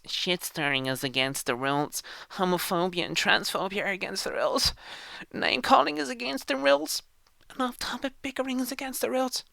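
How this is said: It is read in a mocking put-on voice.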